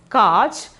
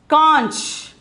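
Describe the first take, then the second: First: No nasal sound comes before the ch. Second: A nasal sound comes before the ch. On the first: The speaker calls it wrong. "Simply we can pronounce pronounce it as kach" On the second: The speaker calls it right. "but the pronunciation is conch"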